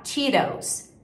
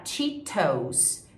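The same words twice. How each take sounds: First: "Cheetos" with T turned into tapped R; American tap in "Cheetos"; flapped T. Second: "Cheetos" with a crisp full T, "chee-tous"; the version to avoid: "Cheetos" with strong T; hard T. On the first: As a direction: say "Cheetos" as "chee-rous". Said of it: "você vai falar Cheetos". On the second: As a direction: show "Cheetos" without the flap. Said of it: "ao invés de você falar". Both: Shown as a demonstration.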